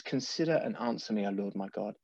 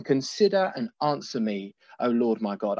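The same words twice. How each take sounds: First: Softer, hushed reading of the verse; quieter reverent reading. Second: Said in the usual way. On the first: Real, not acted. Preacher rereads the psalm verse to the congregation, hushed. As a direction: let the prayer drop to a hush. He says.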